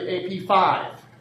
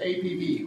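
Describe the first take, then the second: First: The name ends with the number 'five'. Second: The name ends with the letter sound 'B'. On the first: The speaker calls it right. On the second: The speaker calls it wrong. "If most people would pronounce it that way, they'd be wrong"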